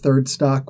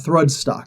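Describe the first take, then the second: First: The first syllable sounds like 'third'. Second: The first syllable sounds like 'thrud'. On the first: The speaker calls it wrong. "a lot of people mispronounce it" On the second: The speaker calls it right. "is the proper name for it"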